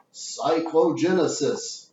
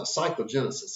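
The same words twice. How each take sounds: First: Slow, relishing "Cyclogenesis"; savoring the word. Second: Said in the usual way. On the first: Shown as a demonstration. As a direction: stretch out "Cyclogenesis", enjoying each syllable. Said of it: "I like that word so much". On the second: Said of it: "that's a good word".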